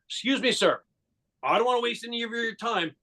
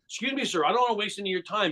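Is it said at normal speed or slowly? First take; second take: slowly; normal speed. First: It is said more slowly. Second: It is said at normal speed.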